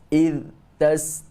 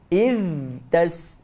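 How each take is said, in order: First: The voice stops abruptly after the first word. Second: The first word ends with a puff of breath. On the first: "putus getah suara ... terhenti suara"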